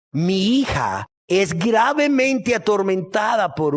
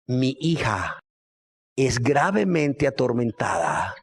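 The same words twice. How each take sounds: First: GRAVEMENTE ATORMENTADA drawn out slowly and raised in pitch; slow, rising weight on "gravemente atormentada"; slow emphatic repeat. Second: Said in the usual way. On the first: Acted.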